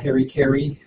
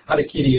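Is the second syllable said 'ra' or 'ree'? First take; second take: ree; ra. First: The second syllable is said as 'ree'. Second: The second syllable is said as 'ra'. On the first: This is the common American way of saying it. The speaker calls it wrong. "what Americans call" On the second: This is closer to the original pronunciation. The speaker calls it right. "would be better pronunciation"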